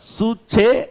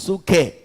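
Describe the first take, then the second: First: The middle consonant is a ch sound. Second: The middle consonant is a k sound. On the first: "சரியா அதை சொல்லணும்னா சூச்சே அப்படின்னு சொல்றது கரெக்டா இருக்கும்" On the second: "சிலர் அதை சூக்கேன்னுவாங்க"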